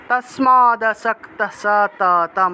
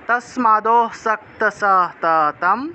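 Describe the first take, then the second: First: The words are split apart at 'tasmad'. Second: The 'd' is linked to the next word by 'o'. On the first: "এই জায়গাটাকে ভেঙে আসলে তস্মাদ আসক্ত উচ্চারণ করা যায়" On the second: "দটাকে পূর্ণ উচ্চারণ করলেও কিন্তু একটা অ চলে আসে"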